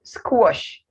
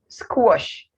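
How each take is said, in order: First: The vowel is an O sound. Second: The vowel is an O sound.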